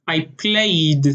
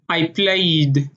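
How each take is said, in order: First: It is said in an Israeli accent. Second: It is said in an Israeli accent.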